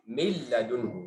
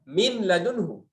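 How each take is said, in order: First: The n merges fully into the l. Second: The n is pronounced before the l. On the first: The speaker calls it right. "Langsung kalamnya" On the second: The speaker calls it wrong. "Apakah kita ucap nun ya?"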